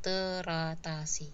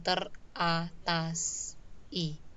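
First: The s links onto the final i smoothly. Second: The s stays with the stem; i is separate. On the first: The speaker calls it right. "tapi teratasi" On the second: The speaker calls it wrong. "bukan teratas i"

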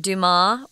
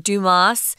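First: The name is pronounced with French sounds. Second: The name is pronounced with English sounds.

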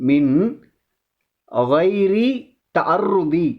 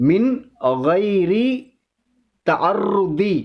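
The two takes are said the same way.

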